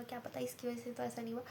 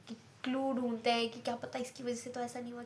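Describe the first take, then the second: First: Same thought repeated much softer, to herself; softly wondering aloud; quiet musing. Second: Said in the usual way. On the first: Shown as a demonstration. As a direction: drop the voice and muse on क्या पता इसकी वजह से. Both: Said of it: "repeated line".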